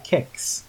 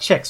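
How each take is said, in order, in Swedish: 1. Ordet börjar med ett hårt k-ljud. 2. Ordet börjar med ett mjukt tj-ljud. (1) "Det heter kex" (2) "hade det varit kex så hade det stavat T-J-E-K-S"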